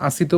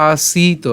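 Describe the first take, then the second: First: "আসিত" with a quick, short i; "আসিত" as aa-si-ta, middle vowel unstressed. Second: "আসিত" with a long, pressed ee; "আসিত" said aa-SEEE-ta, middle vowel held; stress on the long vowel. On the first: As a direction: say "আসিত" without leaning on "সি". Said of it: "আমি আসিত উচ্চারণ করিনি". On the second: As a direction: lean on and stretch the "সি" in "আসিত". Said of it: "এখানে আমাদের বেশি চাপ দিতে হবে". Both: Shown as a demonstration.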